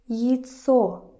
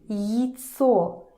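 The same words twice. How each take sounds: First: The first vowel is reduced toward 'yi'. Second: The first vowel is reduced toward 'yi'.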